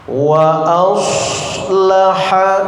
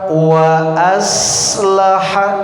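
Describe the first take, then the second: First: The s sound is thick and heavy. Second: The s sound is thin and hissing. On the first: The speaker calls it right. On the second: The speaker calls it wrong.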